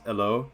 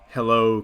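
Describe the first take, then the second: First: The word begins without any h sound. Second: The word begins with a clear h sound.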